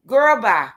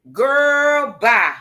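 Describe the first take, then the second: First: Said in the usual way. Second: Drawn-out dismissal. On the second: Real, not acted.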